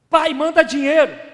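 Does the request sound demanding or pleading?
demanding. It sounds like a rude, demanding order. The son is giving his father an order. "Tá maluco? Olha como ele ainda fala comigo"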